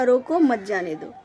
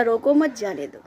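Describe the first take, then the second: First: Brief break after रोको, मत goes with जाने दो; रोको alone, then मत जाने दो together; pause after रोको. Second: रोको मत grouped, then जाने दो; pause after मत. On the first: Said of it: "पिता ने कहा था". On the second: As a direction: join मत onto रोको before जाने दो. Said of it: "उसने सोचा". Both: Shown as a demonstration.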